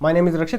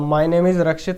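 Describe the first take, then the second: First: It is spoken quickly, carelessly and more quietly. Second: It is spoken slowly, clearly and fairly loudly. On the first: The speaker calls it wrong. "ऐसे नहीं कि भी" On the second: The speaker calls it right. "इस तरीके से आपको धीरे धीरे और तरीके से और थोड़ा लाउड बोलना है"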